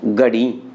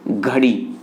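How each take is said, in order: First: गड़ी with plain g and a low pitched drop; Haryanvi गड़ी. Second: घड़ी with a breathy aspirated gh; Rajasthani घड़ी. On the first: Teacher showing the Haryana pronunciation, गड़ी with a low falling tone. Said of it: "वहाँ उच्चारण क्या होता है?". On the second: Teacher contrasting two dialects, says घड़ी with aspirated gh. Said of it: "Rajasthan के लोग उच्चारण करते हैं घड़ी". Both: Shown as a demonstration.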